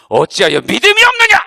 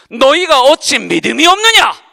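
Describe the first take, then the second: First: Loud, heavy fall on 없느냐; stern scolding. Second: Loud, stern question with heavy fall on 없느냐; stern rebuke. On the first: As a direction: scold them sharply. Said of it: "이렇게 막 혼내시더라고요". (믿음 없다고 혼내는 예수님) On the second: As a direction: scold them for their lack of faith. Quoting Jesus rebuking disciples. (없느냐를 힘주어 꾸짖는 목소리) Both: Retold or imitated.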